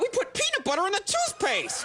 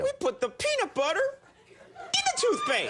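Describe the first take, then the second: First: It is said without a dramatic pause. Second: It is said with a dramatic pause.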